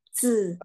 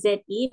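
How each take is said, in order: First: "Zi" with a buzzed vowel, not ee; Mandarin zi sound. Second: "Zi" with a plain ee vowel; wrong vowel in Zi. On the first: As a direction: draw out "Zi" as tsz. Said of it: "melainkan Zi". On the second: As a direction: say "Zi" as spelt, like zee. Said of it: "bukan Zi". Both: Shown as a demonstration.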